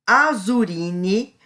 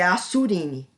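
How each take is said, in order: First: The middle consonant is a buzzing Z sound. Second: The middle consonant is a hissing S sound. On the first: "eu vou ler como se fosse Z" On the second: "eu não sei se é Assurine"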